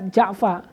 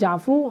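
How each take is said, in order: First: The word ends with an 'a' vowel. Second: The word ends with an 'u' vowel. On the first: "dibaca fathah" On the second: "Boleh dibaca doma"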